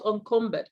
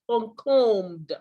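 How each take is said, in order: First: The ending is said as a separate 'ed' syllable. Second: The ending is said as a plain 'd' sound. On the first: The speaker calls it wrong. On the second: The speaker calls it right.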